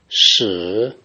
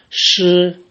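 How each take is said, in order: First: The pitch dips low, then rises. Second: The pitch stays high and level.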